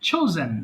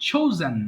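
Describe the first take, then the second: The two takes are said the same way.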